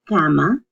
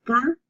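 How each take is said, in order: First: Said in the usual way. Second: "cama" split into ca, then ma, with a long pause; syllable by syllable. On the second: Shown as a demonstration. Teacher showing her mother's reading method, "cama" broken into syllables. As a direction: separate each consonant-vowel pair in "cama". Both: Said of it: "you separate the two".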